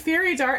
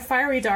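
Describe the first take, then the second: First: The first vowel sounds like the vowel in 'fair'. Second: The first vowel sounds like the vowel in 'fire'. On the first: This is how the other person says it. "you're saying fairy dart" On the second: This is how the speaker herself says it. "I say fiery, like a fiery dart"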